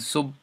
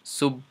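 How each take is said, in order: First: The final b is soft and barely heard. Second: The final b is soft and barely heard.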